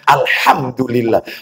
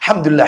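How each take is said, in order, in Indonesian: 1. Frasa ini diucapkan dengan lambat dan utuh. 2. Frasa ini terburu-buru dan terpotong-potong. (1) "mestinya alhamdulillah, bukan alham" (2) "Apa ini delam, delam"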